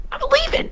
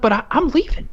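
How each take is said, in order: First: Very high squealing "leaving"; mock shriek. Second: Higher, indignant "leaving"; mock huffy exit. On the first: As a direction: shriek "leaving" in exaggerated outrage. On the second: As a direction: announce it with rising irritation. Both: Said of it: "I'm like".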